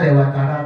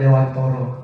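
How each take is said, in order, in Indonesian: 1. Vokal terakhirnya terdengar seperti 'a'. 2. Vokal terakhirnya terdengar seperti 'o'. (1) "Bacaannya Dewantara" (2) "bacanya harus Dewantoro walaupun tulisannya Dewantara"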